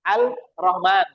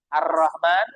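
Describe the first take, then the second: First: The article keeps a clear l sound. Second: The article blends into the r sound. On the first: The speaker calls it wrong. "enggak akan dengar al" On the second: The speaker calls it right. "Kalau ini kan alif lam syamsiyah. Makanya Ar-Rahman"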